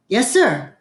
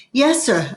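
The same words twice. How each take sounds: First: A slightly raised, firm answer; said louder. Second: Said in the usual way. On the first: A narrator's reading. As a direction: answer up so the preacher hears. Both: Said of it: "I said louder".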